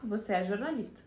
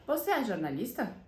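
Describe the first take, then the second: First: "Você é jornalista" stated, with no questioning lift at the end; statement intonation. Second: "Você é jornalista" asked with the voice rising at the end; question intonation. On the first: Teacher showing students the affirmative version, statement intonation. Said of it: "Se eu quiser afirmar". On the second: Teacher showing students a yes-no question, question intonation. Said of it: "é uma frase interrogativa". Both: Shown as a demonstration.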